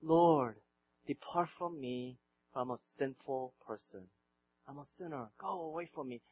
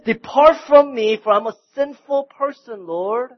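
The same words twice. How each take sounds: First: Hushed, low, broken confession; Peter's plea. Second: Loud, high, anguished plea to be left alone; Peter's desperate cry. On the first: Peter quietly begs Jesus to leave him, hushed. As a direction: barely voice the plea, lowered and soft. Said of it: "he says". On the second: Peter cries out to Jesus after the miracle, loud and high. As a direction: cry out the confession at full volume. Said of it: "Peter falls down and he says". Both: Retold or imitated.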